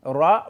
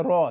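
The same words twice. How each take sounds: First: "রা" as a heavy Arabic raa; "রা" in Arabic, unlike Bengali ro; Arabic letter ra. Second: "র" as plain Bengali ro; "র" pronounced ro, not Arabic raa; Bengali letter ro. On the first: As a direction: say "রা" with rounded Arabic r. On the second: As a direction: say "র" with an ordinary Bengali r and o vowel. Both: Shown as a demonstration. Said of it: "Bangla ভাষায় র আছে".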